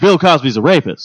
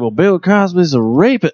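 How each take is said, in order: First: It is said confidently and boldly. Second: It is said tentatively and low-key.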